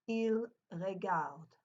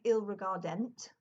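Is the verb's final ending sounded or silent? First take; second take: silent; sounded. First: The written verb ending is left silent. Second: The written verb ending is pronounced aloud. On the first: The speaker calls it right. "it is a silent ending to the word" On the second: The speaker calls it wrong. "we don't say il regardent or anything like that"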